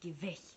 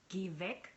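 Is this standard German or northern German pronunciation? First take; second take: northern; standard. First: It is said in a lazier northern German way. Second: It is said in standard German pronunciation. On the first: "in the north of Germany they say" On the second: "normally... you have to say"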